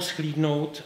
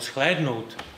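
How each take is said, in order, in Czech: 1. První samohláska je dlouhé 'ee'. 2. První samohláska je dlouhé 'eh'.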